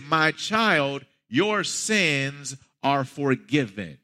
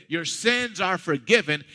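First: Slow, weighty, each word laid down; slow solemn declaration. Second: Said in the usual way. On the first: Retold or imitated. Jesus to the paralyzed man, slow and solemn. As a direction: pronounce forgiveness gravely and slowly.

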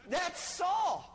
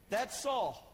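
First: Nail it home to the congregation; emphatic. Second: Said in the usual way. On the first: Shown as a demonstration. Preacher driving home the point about Saul, emphatic call.

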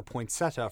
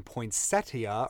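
First: Poinsettia as poyn-SET-uh; poinsettia with no "ee" before the last vowel; pronounced without the i. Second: Poinsettia as poyn-SET-ee-uh; poinsettia with an "ee" before the last vowel; pronounced with the i. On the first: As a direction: say poinsettia in three syllables. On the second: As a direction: say poinsettia in four syllables. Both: Shown as a demonstration. Giving both pronunciations of the name.

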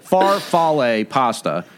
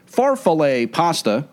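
First: Farfalle said slowly and carefully, far-FAL-le; careful correction of farfalle with stress on fal; corrected Italian pronunciation. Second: Farfalle with the stress pushed early, FAR-falle; early stress mispronunciation. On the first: Shown as a demonstration. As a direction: farfalle pronounced deliberately the Italian way. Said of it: "it is farfalle". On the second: Real, not acted. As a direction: say Farfalle leaning on the first syllable. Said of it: "you put the emphasis a little bit sooner in the word".

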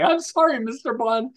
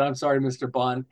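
First: High imitation of a receptionist cracking up; imitating her giggling apology much higher; mock hysterical laughing. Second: Said in the usual way. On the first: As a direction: squeak it out as if laughing. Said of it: "laughing hysterically". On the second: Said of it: "She actually said".

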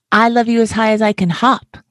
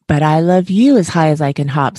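First: High, bouncy, laughing little hare. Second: A touch of a smile, fond and steady; smiling. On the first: Little hare bragging to his father, high and laughing. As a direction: giggle the line out like a bouncing child. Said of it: "laughed Little Nut Brown Hair". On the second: Big hare answering his little one, mildly smiling. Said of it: "smiled Big Nut Brown Hair". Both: Acted.

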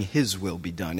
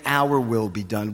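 First: "His" leaned on, trailing lower after it; stress on HIS. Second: "Our" leaned on, rest unstressed; stress on OUR. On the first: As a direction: put the weight on the word "His". Contrasts His will with ours. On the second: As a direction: put the weight on the word "Our". Contrasts our will with His. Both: Shown as a demonstration.

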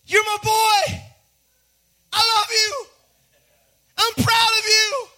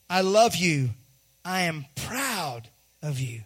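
First: High, loud proud-father holler; cheering out each phrase at high pitch; exultant proud shout. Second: Slow, low and deliberate; tender fatherly affirmation. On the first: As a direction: burst out with fatherly pride, short phrases. God bursting with pride over Jesus. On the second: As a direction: let each word land, like a father to his child. Father slowly affirms his child. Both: Acted.

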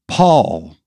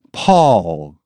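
First: Calling the name out loudly, high; loud cry. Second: Calling the name loudly with a falling tune; loud cry, falling. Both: A narrator's reading. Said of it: "cried out in a loud voice".

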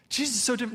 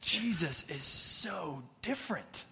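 First: "so" lifted high and held, the rest plain; stress on so. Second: Said in the usual way. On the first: Shown as a demonstration. Preacher to the congregation, "so" raised and stressed. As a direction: lean hard on "so" in "Jesus is so different". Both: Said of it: "But listen".

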